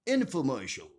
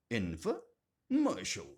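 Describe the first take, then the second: First: Said in the usual way. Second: "Infomercial" split by a pause after Info; split into parts. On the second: Shown as a demonstration. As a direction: say "Infomercial" in two parts, Info, then mercial. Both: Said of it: "Info plus mercial is a combination".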